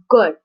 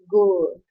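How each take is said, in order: First: The vowel is short, standard English. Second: The vowel is long, Bangladeshi-style.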